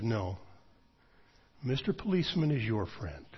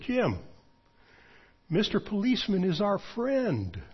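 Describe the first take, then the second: First: Dead serious. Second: Put-on high, sing-song children's-rhyme voice; joking singsong. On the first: Retold or imitated. Friend correcting him gravely, quiet and serious. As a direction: answer flatly with total seriousness. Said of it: "serious as a heart attack". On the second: Joking to his friend to lighten the mood, high singsong. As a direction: tease him lightly like a kids' slogan. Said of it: "as a joke, I grinned".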